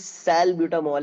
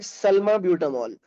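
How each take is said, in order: First: The first part sounds like 'sal'. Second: The first part sounds like 'salma'. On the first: The speaker calls it right. "सैल ब्यूटामॉल है" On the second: The speaker calls it wrong. "सल्मा नहीं है"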